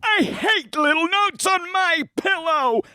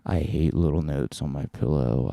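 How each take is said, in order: First: It is spoken in an invented futuristic style. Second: It is spoken in a drowsy stoner drawl. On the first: "a voice pattern that will happen in the future"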